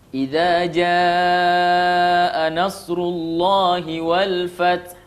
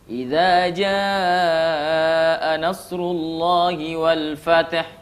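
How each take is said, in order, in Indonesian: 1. Bunyi t di akhir berakhir dengan lepasan lembut yang berhembus. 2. Bunyi t di akhir berakhir dengan lepasan memantul yang bergema. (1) "ada nya sedikit, itu namanya hams" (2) "Salah itu. Dia qalqalah huruf ta"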